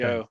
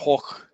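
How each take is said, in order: First: The name sounds like English 'go'. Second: The name starts and ends with throaty h sounds. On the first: The speaker calls it wrong. "I think Americans say Vincent Van" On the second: The speaker calls it right. "So it's actually pronounced Vincent Hoch"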